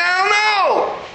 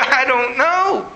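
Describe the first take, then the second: First: High, drawn-out childish mock wail; hammed-up first-grader's wail, pitched way up; bawling first grader. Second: Higher, drawn-out mock wail; mildly hammed-up tearful answer; mock bawling. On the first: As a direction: imitate a little kid bawling the words. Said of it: "this time like a first grader". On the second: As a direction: imitate bawling through the words, slowly. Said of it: "I started bawling in the restaurant".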